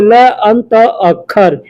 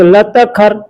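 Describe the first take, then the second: First: The words are said as separate words. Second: The words are run together as one word.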